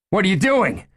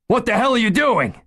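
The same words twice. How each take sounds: First: High, loud, panicked shout. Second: Higher, louder, frantic yell; frantic shout. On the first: Gunman shouting as the chief walks at him, panicked yell. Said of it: "Ed shouted". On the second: Gunman losing control as the chief advances, frantic yell. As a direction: scream it as panic takes over. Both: Acted.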